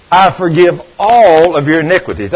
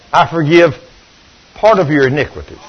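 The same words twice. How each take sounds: First: "all" given the main weight, a firm falling stress. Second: "part" said plainly, as if it belonged in the verse; deliberate misquote. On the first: Preacher correcting his misquote, stressing all. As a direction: lean hard on "all" to correct the verse. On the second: Preacher testing the crowd with a wrong verse, deadpan. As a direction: slip in "part" with a straight face. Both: Shown as a demonstration. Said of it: "I can't even lie to y'all".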